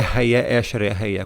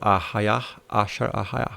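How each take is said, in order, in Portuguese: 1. Cada palavra começa com som de E. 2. Cada palavra começa com som de A. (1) "não é ... como no hebraico moderno" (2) "o paleohebraico não tem som de E, é A"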